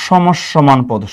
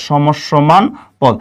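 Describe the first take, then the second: First: Said in the usual way. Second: সমসমান পদ said very slowly, every syllable stretched; slow, drawn-out repeat. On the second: Shown as a demonstration. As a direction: spell out সমসমান পদ slowly for students to copy. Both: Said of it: "এটাকে আমরা বলবো".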